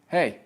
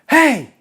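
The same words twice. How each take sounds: First: The call is small, quiet and restrained. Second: The call is big, loud and projected. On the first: It is pitched for a camera close by. "It's brought down a ton" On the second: It is pitched for a stage audience. "if you're calling somebody in a production"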